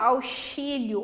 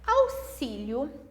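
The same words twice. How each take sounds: First: The x is sounded like 'sh'. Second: The x is not sounded like 'sh'. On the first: "aqui eu não posso falar auxílio ou exame ou tóxico, tá errado" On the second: "Como que eu pronuncio elas?"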